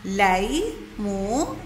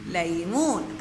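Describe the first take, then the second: First: ليمون broken into لي، مو، ن with pauses; syllable by syllable. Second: Said in the usual way. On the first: Shown as a demonstration. Teacher showing how ليمون is built, syllable by syllable. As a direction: stretch each part of ليمون separately. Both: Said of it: "فبتطلع عنا الكلمة".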